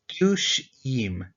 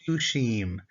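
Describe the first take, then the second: First: Dushim stretched slowly, ending im drawn out clearly; slow teaching demo. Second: Said in the usual way. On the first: Shown as a demonstration. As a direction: model dushim slowly for the class. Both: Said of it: "now we add on our ending".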